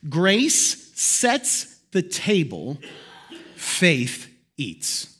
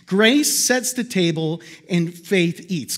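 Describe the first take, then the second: First: Very slow, each phrase drawn out; slow solemn quote. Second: Said in the usual way. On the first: Shown as a demonstration. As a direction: let the saying land word by word. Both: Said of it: "Let me break it down".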